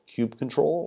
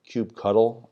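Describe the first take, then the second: First: The ending is said as the word control. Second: The ending is said as the word cuddle. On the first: "I think I use control" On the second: "I think I've heard cuddle too"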